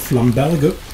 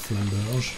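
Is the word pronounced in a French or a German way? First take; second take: German; French. First: The word is pronounced with German sounds. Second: The word is pronounced with French sounds. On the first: "heißt das auf Deutsch Flamberge" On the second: "man kann es natürlich auch Französisch aussprechen"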